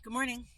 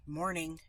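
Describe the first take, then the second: First: Higher, friendly "Good morning"; sunny hello; cheerful greeting. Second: Grumpy morning; curt greeting. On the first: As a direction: greet them brightly. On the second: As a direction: grunt it out like a bad day. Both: Shown as a demonstration. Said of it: "lean towards the more aggressive".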